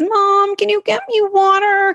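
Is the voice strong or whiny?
whiny. The request is said in a whiny voice. The speaker calls it wrong. "So a kid says"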